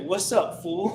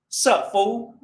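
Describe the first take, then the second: First: The greeting is said in its full form. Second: The greeting is clipped to a short form. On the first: "What did I just say?" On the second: "We try to make the language as simple as possible"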